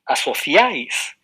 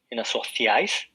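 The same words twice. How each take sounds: First: Asociáis slow and louder, each vowel drawn out; slow demo word. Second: Said in the usual way. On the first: Shown as a demonstration. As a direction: lay out Asociáis slowly for the class. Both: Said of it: "tenemos tres vocales".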